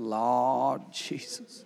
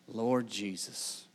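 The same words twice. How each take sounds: First: It is said as an exasperated, frustrated exclamation. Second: It is said as a sincere, reverent prayer.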